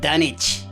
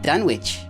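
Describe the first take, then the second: First: It is said in a local Massachusetts pronunciation. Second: It is said in a general, non-local pronunciation.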